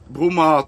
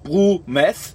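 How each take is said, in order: First: The name is said without an English pronunciation. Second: The name is said with an English pronunciation. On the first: The speaker calls it right. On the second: The speaker calls it wrong.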